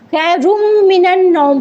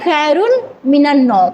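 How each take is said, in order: First: The n sound merges into the following m. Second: The n sound is kept separate from the m. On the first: "जोड़ के पढ़ेंगे" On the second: "अगर हम अलग पढ़ते हैं"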